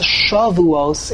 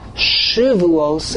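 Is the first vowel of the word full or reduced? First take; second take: full; reduced. First: The first syllable has a full 'a' vowel. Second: The first vowel is reduced or nearly dropped. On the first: It means weeks. "When we pronounce it with a Komatz" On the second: It means oaths. "When we pronounce it with a Shiva"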